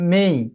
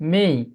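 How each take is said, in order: The two takes are said the same way.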